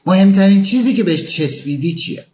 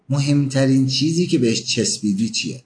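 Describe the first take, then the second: First: Higher and louder, rising on چیزی; pointed question. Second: Said in the usual way. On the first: Shown as a demonstration. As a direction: press the question home, lifting چیزی. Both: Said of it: "دقیقاً در رابطه با همون موضوع".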